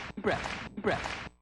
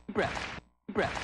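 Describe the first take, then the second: The two takes are said the same way.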